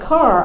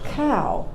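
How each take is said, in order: First: The word ends with a clear R sound. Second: The R is missing, so it sounds like caw. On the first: "instead of saying car" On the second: "I couldn't say R"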